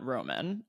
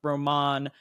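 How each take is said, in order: First: It is pronounced like the ordinary English word. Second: It is pronounced like the character's name. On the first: It refers to the movie title. The speaker calls it wrong. "and not Roman, as in the Audrey Hepburn movie" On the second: It refers to the boyfriend character. The speaker calls it right. "pronounce it as in Roman, Harold's boyfriend"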